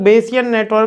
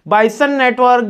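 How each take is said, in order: First: The first syllable sounds like 'bay'. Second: The first syllable sounds like 'buy'. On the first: "बेसियन भी बोल सकते हैं" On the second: "बाइसन network usually professor इसके pronunciation में use करते हैं"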